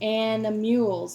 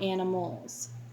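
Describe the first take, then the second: First: The word is pronounced in an odd way. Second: The word is pronounced in the normal way. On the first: The speaker calls it wrong. "I said animals" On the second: The speaker calls it right. "not animals"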